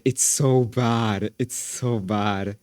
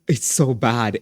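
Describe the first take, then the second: First: Slow drawn-out disgust. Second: Said in the usual way. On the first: Shown as a demonstration. Streamer to chat about the video, slow drawn-out dismay. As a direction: stretch every word of "It's so bad" out slowly.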